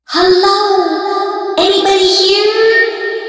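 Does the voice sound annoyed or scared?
scared. The voice sounds scared and unsure.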